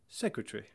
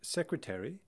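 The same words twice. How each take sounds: First: The word is shortened to three syllables. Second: The word is said with four syllables.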